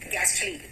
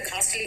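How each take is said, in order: First: The first vowel is a short 'a' sound. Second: The first vowel is a long 'aa' sound. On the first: The speaker calls it right. "इसका pronunciation है गैस्टली" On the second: The speaker calls it wrong. "Ghost को देखकर घासली feeling आती है"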